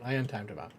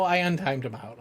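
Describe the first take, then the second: First: "I untimed him out" said low and much softer, under the breath; muttered repeat. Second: Said in the usual way. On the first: Shown as a demonstration. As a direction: mumble it again to yourself.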